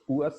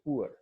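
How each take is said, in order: First: The vowel glides to a soft uh ending. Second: The vowel ends with a sounded r. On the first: The speaker calls it right. "सो पुआ sound" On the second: The speaker calls it wrong. "हम तो कैसे बोल रहे होते हैं poor"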